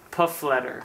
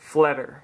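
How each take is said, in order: First: It starts with a 'p' sound and has three syllables. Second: It starts with an 'f' sound and has two syllables. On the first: This is how other people usually say the name. The speaker calls it wrong. "It's always like Puffletter" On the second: This is how the family says the name. The speaker calls it right. "that's how it's pronounced. So it's basically a silent P and a silent E R"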